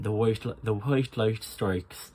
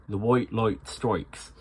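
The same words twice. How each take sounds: First: "white" and "light" with an "oi" sound; "the white light strikes" with an "oi" diphthong; Irish oi. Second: "white light strikes" said slowly with a light "oi"; milder oi. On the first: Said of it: "the oi sound is important". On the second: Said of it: "but don't go too far". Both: Shown as a demonstration.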